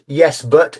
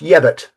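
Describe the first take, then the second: First: Both words are said fully and separately. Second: The two words run together into one reduced word. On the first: The speaker calls it wrong. "it's not yes but" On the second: The speaker calls it right. "it's yebut"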